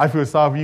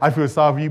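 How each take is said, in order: First: It is said with a spiteful, malicious tone. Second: It is said with a spiteful, malicious tone.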